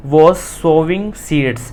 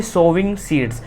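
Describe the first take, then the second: First: Slow reading. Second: Said in the usual way. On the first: Shown as a demonstration. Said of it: "teacher reads the sentence slowly". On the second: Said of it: "teacher repeats phrase in explanation".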